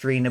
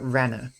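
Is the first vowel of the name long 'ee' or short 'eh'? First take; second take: long ee; short eh. First: The first vowel is a long 'ee' sound. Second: The first vowel is a short 'eh' sound. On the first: The speaker calls it wrong. "is not pronounced Rena" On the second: The speaker calls it right. "but rather Renna"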